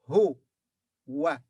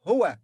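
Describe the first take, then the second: First: "Hu. Wa." as two separate syllables. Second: Said in the usual way. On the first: Shown as a demonstration. Teacher builds he from ha and waw, "Hu. Wa." syllable by syllable. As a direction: sound out "Hu", pause, then "Wa". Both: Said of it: "So it will be what?".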